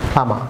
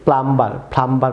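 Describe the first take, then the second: First: প্লামা with only m, no b or r; silent b. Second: প্লাম্বার with b and final r both sounded; common mispronunciation. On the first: Teacher corrects viewers, প্লামা with b left silent. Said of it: "pronounce এটি হবে". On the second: Teacher shows viewers their usual error, b sounded in প্লাম্বার. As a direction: say প্লাম্বার with a full "mbar" ending. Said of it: "pronounce করে থাকেন". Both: Shown as a demonstration.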